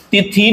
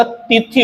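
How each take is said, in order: First: तिथि with long final ee, ti-thee; wrong pronunciation. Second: तिथि with both vowels short, ti-thi; correct pronunciation. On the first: Teacher showing the mistake, तिथि said as ti-thee. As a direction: lengthen the end of तिथि. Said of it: "नहीं होता". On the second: Teacher correcting it, तिथि said as ti-thi. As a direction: keep तिथि short at the end. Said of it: "होता है". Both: Shown as a demonstration.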